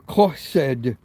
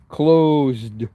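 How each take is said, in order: First: It is said as a Spanish speaker would. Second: It is said as a native English speaker would. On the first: "They go closed" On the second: "we just read that kind of left to right"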